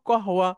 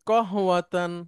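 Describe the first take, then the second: First: The word ends without the '-tan' ending. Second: The word ends with a full '-tan' ending. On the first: This is a casual everyday form people still understand. "আপনি শুধু কহওয়া এভাবে বললেও লোকে বুঝবে" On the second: This is the formal, correct form. "এটা শুদ্ধ আরবি"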